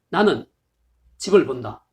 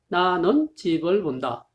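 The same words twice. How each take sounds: First: There is a pause right after 나는. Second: It runs on with no pause after 나는. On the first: It clearly means I see the house. "나는 다음에 쉼표를 넣어주면" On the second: It is unclear whether I see a house or see a flying house. "그냥 들으면"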